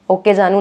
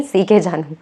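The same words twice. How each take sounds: First: "ओके जानू" said as O-K Janu, the misreading; "ओके जानू" with O-K, the mistaken name; wrong reading. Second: "सीके जानू" said as C-K Janu, falling tune, slightly lower; "सीके जानू" with C-K, the right name; correct reading. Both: Shown as a demonstration. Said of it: "ओके जानू नहीं".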